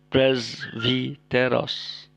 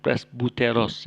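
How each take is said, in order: First: It is said with a v sound and i vowel. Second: It is said with a b sound and u vowel. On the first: The speaker calls it right. "tapi presviteros" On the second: The speaker calls it wrong. "bukan presbuteros ya"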